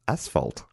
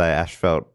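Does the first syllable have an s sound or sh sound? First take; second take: s sound; sh sound. First: The first syllable has an s sound. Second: The first syllable has an sh sound. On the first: The speaker calls it right. "There's no H in that spot" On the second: The speaker calls it wrong. "we say it wrong"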